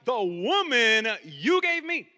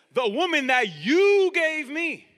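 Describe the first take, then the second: First: "woman" leaned on and drawn out; stress on WOMAN. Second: "you" hit loud, high and drawn out; stress on YOU. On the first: Adam blaming Eve to God, stressing "woman". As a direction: put the weight on "woman", shifting blame onto her. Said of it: "Did Adam emphasize". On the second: Adam throwing the blame at God, stressing "you". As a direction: punch "you" hard as an accusation. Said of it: "Adam emphasize this?". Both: Shown as a demonstration.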